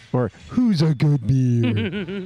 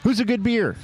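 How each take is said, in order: First: Slow, sing-song praise like talking to a puppy; dog-praising voice. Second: Said in the usual way. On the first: Shown as a demonstration. Host rereads beer name as if praising a dog, slow coo.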